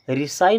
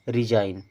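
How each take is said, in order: First: The middle consonant is an S sound. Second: The middle consonant is a Z sound. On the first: The speaker calls it wrong. "अब इसे रिसाइन नहीं पढ़ना है" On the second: The speaker calls it right. "बल्कि इसे पढ़ना है रिजाइन"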